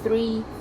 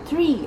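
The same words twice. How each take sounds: First: The word begins with a soft th sound. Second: The word begins with a hard t sound. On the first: "with your tongue like three" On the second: "as in the trees outside in the gardens"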